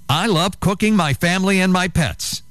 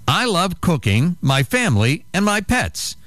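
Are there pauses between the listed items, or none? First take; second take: none; pauses. First: It runs on without pauses after cooking. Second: It has pauses after cooking and family.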